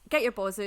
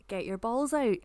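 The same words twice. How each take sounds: First: "balls out" said broad Scots, as "baws oot"; Scots pronunciation. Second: "balls out" spelled out in standard English, L sounded; translated clearly as standard "balls out"; standard pronunciation. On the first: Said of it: "with our way of saying it". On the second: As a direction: say "balls" with its L and "out" with a full ow. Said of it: "might need to explain that". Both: Shown as a demonstration.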